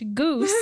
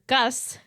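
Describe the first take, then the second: First: The name has a long vowel, like 'goose'. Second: The name has a short vowel, like 'gus'. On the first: The speaker calls it right. "pronounced Goose" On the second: The speaker calls it wrong. "I mispronounced it"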